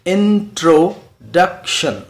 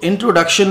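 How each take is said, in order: First: "इंट्रोडक्शन" slowly as IN, TRO, DUC, TION; four separated beats on "इंट्रोडक्शन"; split into syllables. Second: Said in the usual way. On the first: Shown as a demonstration. Teacher shows learners four syllables, sounded out slowly. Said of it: "इसमें चार syllables". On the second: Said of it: "तो इंट्रोडक्शन में टू feet".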